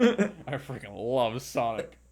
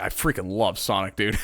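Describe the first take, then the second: First: Slow, laughing through I freaking love Sonic; laughing repeat. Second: Lower, mock-earnest fanboy gush, love leaned on; mock Sonic fan. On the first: Pretend. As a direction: savor it, chuckling, slow. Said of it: "repeats the line laughing". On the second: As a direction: play the proud Sonic-obsessed parent, lightly. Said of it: "You guys are like".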